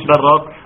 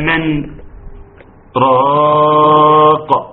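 First: The two words run together without any break. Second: A brief silent break separates the two words. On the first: The speaker calls it wrong. "مش براق" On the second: The speaker calls it right. "سكتة"

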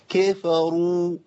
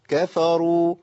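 First: The word is said with strained, forceful effort. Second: The word is said easily, without strain. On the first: The speaker calls it wrong. "انت بتقرا قران ولا داخل خناقه؟" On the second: The speaker calls it right. "انا ما بذلت مجهود"

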